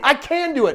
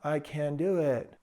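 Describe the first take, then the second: First: It is said firmly, with strong conviction. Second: It is said weakly, without conviction. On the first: The speaker calls it right. "say it with conviction. Say it like you mean it" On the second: The speaker calls it wrong.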